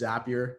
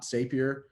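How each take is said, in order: First: The word rhymes with happier. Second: The word does not rhyme with happier. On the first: The speaker calls it right. "Zapier rhymes with happier. That's how you pronounce it" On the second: The speaker calls it wrong. "not Zapier"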